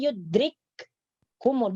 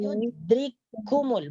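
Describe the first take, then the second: First: The k sound is held double and separate. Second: The two k sounds merge into one. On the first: The speaker calls it wrong. "Kalau dibaca yudrikkumul berarti itu tidak didghamkan" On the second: The speaker calls it right. "masukkan huruf kaf yang pertama ini ke dalam huruf kaf yang kedua"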